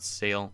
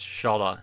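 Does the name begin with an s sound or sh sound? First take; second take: s sound; sh sound. First: The name begins with an s sound. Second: The name begins with a sh sound. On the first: The speaker calls it wrong. "not Sale" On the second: The speaker calls it right. "It's Shala"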